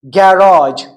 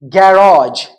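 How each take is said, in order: First: It is said with a British accent. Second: The same.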